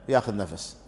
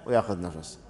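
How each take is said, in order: No difference in how they are said.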